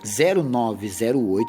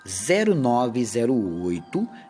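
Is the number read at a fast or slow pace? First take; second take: fast; slow. First: The number is read at a normal, quicker pace. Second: The number is read slowly and deliberately.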